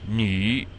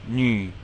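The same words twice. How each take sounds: First: The syllable has a dipping third-tone pitch. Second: The syllable has a plain, level pitch.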